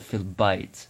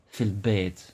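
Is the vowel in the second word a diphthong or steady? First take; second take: diphthong; steady. First: The vowel glides as a diphthong, like 'eye'. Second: The vowel is a steady sound, like 'ay'. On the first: This is the very formal standard form. "which is very fusha" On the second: This is the everyday common form. "most of the time I'm just going to say bait"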